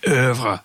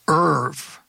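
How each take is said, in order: First: The word is said in a refined, highbrow way. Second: The word is said plainly, like the name Irv.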